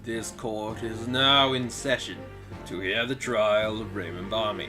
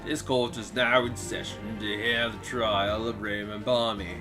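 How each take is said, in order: Both takes have the same delivery.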